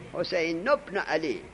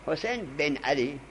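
First: حسین ابن علی with the nun of حسین joined to "bno"; correct linked reading. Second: حسین بن علی with "ben", the alef dropped; wrong Arabic reading. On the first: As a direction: link حسین straight into "obno" with the case vowel. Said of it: "نون حسین رو وصل کن به با". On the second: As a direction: run حسین into "ben" as the faulty habit. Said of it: "این غلطه". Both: Shown as a demonstration.

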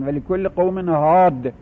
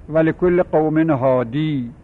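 First: Slow recitation, pausing on «هاد» with the ī dropped; وقف با حذف یا. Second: Slow recitation, keeping the final ī of «هادی»; وقف با سکون یا. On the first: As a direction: end «هاد» on a stopped d, with no final ī. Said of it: "با حذف لام الفعل وقف کردن". («هاد» را بدون «ی» و با دال ساکن وقف کن) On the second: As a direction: end «هادی» on a long, held ī. («هادی» را با یای ساکن و کشیده وقف کن) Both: Shown as a demonstration.

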